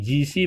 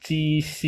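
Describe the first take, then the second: First: G C said with a voiced j, ji-si; buzzing j at the start of G C; wrong reading ji xi. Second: G C said as chi-si, voiceless start; crisp unvoiced ch on G C; correct reading ji xi. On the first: Teacher showing the misreading, voiced initial. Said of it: "bukan dibaca G C". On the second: Teacher correcting ji xi, voiceless initial. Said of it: "tapi dibaca G C". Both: Shown as a demonstration.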